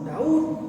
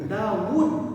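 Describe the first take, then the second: First: The two vowels run together with no w sound. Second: A w sound separates the two vowels. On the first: The speaker calls it wrong. "Dawud bukan Daud" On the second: The speaker calls it right. "Dawud bukan Daud"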